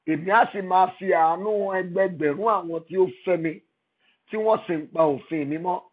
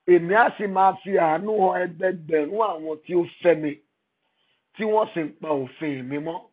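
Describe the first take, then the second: The two takes are said the same way.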